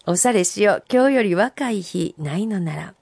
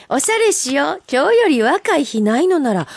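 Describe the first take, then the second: First: Said in the usual way. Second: Haiku read out high and lively; bright recital. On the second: Acted. Host reading a listener's haiku on air, lively. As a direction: deliver the haiku with bright lift.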